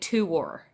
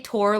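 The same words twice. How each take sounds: First: It is said with an East Coast accent. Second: It is said in the speaker's usual accent. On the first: The speaker calls it wrong. "I am not from the East Coast" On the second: The speaker calls it right. "I am not going to say tour"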